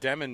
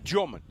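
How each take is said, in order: First: The surname begins with a plain D sound. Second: The surname begins with a J-like sound. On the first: The speaker calls it wrong. "I've been saying Yegor Demin my entire" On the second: The speaker calls it right. "you got to get into the real pronunciation now"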